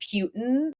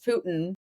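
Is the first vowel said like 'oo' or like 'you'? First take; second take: you; oo. First: The first vowel sounds like the word 'you'. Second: The first vowel is a plain 'oo' sound. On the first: The speaker calls it wrong. "I was pronouncing it like a Q" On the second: The speaker calls it right. "okay, sorry, it's Putin"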